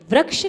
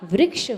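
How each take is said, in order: First: The r is said without an i sound. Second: The r is followed by an i sound. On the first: The speaker calls it wrong. "नहीं होता" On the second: The speaker calls it right. "होता है"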